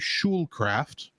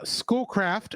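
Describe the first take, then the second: First: The first syllable sounds like shul, not school. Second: The first syllable sounds like the word school.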